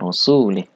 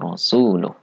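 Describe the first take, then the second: First: The word ends with an 'ih' sound. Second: The word ends with an 'uh' sound. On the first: God disowns the polytheists and also His Messenger. The speaker calls it wrong. "lamnya dibaca kasroh. Ini salah ya" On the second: God and His Messenger both disown the polytheists. The speaker calls it right. "yang benar adalah"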